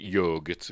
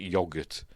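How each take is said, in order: First: It is said the non-British way. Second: It is said the British way. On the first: "We don't pronounce it yogurt" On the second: "we pronounce it yogurt"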